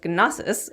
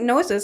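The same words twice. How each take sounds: First: The initial G is sounded fully and firmly. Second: The initial G is not sounded at all. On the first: "the original Greek pronunciation" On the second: "the Americanized uh, uh, pronunciation"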